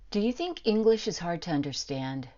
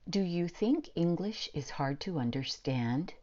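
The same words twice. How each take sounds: First: Words are reduced and run together naturally. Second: Every syllable is slowly and fully enunciated. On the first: The speaker calls it right. "what I first said to you" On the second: The speaker calls it wrong. "without using reductions"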